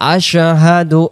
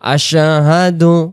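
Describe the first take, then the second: First: The word is said clearly, each sound distinctly articulated. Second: The same.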